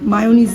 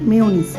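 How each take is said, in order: First: The first syllable has an open 'ah' vowel. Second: The first syllable has a front 'eh' vowel. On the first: The speaker calls it wrong. "মায়োনিজ না" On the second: The speaker calls it right. "আমাকে সৌম্য ঠিক করে দিয়ে গেছে উচ্চারণ"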